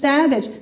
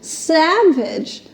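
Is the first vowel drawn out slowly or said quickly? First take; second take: quickly; slowly. First: The first vowel is short and plain. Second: The first vowel opens slowly and stretches.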